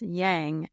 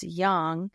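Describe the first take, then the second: First: The word is said with the common anglicized vowel. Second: The word is said with the Chinese vowel. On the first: The speaker calls it wrong. "as people think it's yang" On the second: The speaker calls it right. "it's yang"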